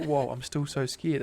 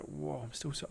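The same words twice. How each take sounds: First: Louder, slower, as if hearing "Whoa, I'm still so scared" for the first time; surprised realization. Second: Hushed repeat. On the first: Retelling a sudden realization to Jess, surprised. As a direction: let the truth hit you mid-sentence. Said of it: "as if it was, like, new information". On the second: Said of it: "I was, like, repeating it". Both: Retold or imitated.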